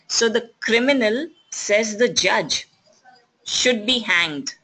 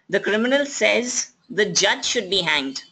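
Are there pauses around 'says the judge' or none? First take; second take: pauses; none. First: There are pauses around 'says the judge'. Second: It is said without pauses, in one phrase.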